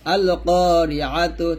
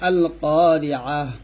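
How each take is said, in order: First: The word ends with a t and vowel. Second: The word ends with a soft h. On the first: The reading continues without stopping. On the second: The reading stops on this word.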